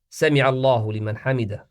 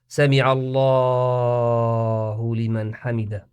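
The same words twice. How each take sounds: First: The phrase is said briskly, without stretching. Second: The phrase is said slowly, with stretched vowels. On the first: The speaker calls it right. "just keep it precise" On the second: The speaker calls it wrong. "no need for"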